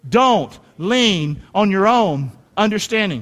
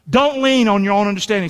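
First: "Don't lean on your own understanding" said slowly, every word weighted; measured recitation for the room to repeat; slow call-and-response. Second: Said in the usual way. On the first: Shown as a demonstration. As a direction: lead the congregation through it word by word. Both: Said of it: "Say that with me".

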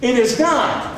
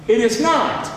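No difference in how they are said.

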